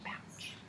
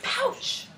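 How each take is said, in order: First: The word is whispered softly. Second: The word is said loudly and excitedly.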